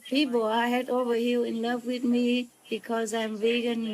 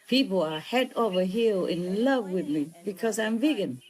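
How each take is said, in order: First: It is read flatly, in a plain voice. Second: It is said in a lively, cool voice. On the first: The speaker calls it wrong. "But they say" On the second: The speaker calls it right. "if it was me, huh? I would say like"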